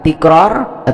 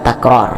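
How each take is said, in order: First: The first syllable has the vowel i. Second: The first syllable has the vowel a. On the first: "bisa dibaca kasrah" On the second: "bisa dibaca fathah, bisa takror"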